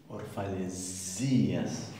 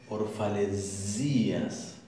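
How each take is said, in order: The two takes are said the same way.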